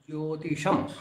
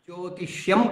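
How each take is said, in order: First: No 'y' sound follows the 'sh'. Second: A 'y' sound follows the 'sh'. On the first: The speaker calls it right. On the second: The speaker calls it wrong. "జ్యోతిష్యం కాదు"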